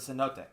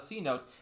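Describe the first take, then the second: First: It is said in three syllables, 'seh-no-tay'. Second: It is said like the two words 'see note'. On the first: The speaker calls it right. "it's a cenote" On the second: The speaker calls it wrong. "It's not a C note"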